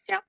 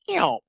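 First: The yelps are short and closer together. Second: The yelps are drawn out, spaced, and honky. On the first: It imitates a hen turkey. "But a hen is more like" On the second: It imitates a young male turkey. "a jake has very spaced out, drawn out yelps with a lot of back end honk"

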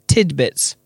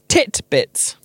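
First: The middle consonant is a d sound. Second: The middle consonant is a t sound. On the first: The speaker calls it right. "I didn't realize it was tidbits" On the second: The speaker calls it wrong. "I thought the word was titbits"

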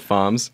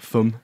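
First: The word is said with an anglicized pronunciation. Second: The word is said with a French pronunciation. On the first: "We mispronounce the French names. We say FOMS" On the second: "Or the French, like, FUM"

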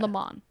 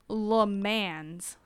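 First: The final S sound is silent. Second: The final S sound is pronounced. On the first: The speaker calls it right. "you don't pronounce the S" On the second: The speaker calls it wrong. "It looks like Le Mans"

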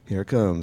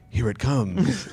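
First: It is said in a plain, understated way. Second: It is said in an overdone, dramatic way.

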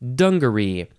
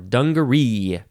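First: The stress is on the first syllable. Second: The stress is on the last syllable. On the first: "emphasize the first syllable" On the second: "or the last syllable"

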